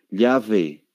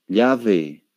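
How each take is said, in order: First: It is said in a Spanish-from-Spain accent. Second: It is said in a Spanish-from-Spain accent.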